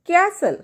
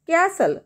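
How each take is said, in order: First: The t sound is left out entirely. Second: The t sound is left out entirely.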